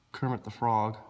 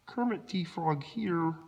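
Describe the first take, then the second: First: Said in the usual way. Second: High, slow, soft frog-puppet voice; Kermit the Frog. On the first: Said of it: "That's why I sound like". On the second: Acted.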